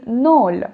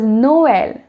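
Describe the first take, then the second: First: The vowels merge into a single sound. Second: The two vowels are pronounced separately. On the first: The word is written without the two dots. "without those two dots ... it would have been Nol" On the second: The word is written with the two dots. "I am separately pronouncing the vowels"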